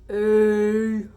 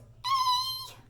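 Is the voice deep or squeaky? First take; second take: deep; squeaky. First: It is said in a deep voice. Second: It is said in a squeaky voice.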